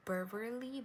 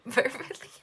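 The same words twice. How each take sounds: First: Said in the usual way. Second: Verbally said higher and louder through a laugh. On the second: Real, not acted. Reader retries the word verbally, laughing. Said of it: "I'm laughing at myself".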